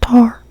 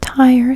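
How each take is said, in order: First: The vowel is a flat ah sound. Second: The vowel glides from ah to ee. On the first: This is how the country accent says it. "they say tar" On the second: This is the ordinary way to say it. "They don't say tire"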